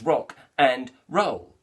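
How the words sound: Each word is said separately with breaks. The speaker calls it wrong. "like it's three separate words"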